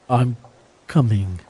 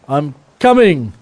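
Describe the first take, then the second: First: It is said quietly, without force. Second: It is said more loudly, with more force.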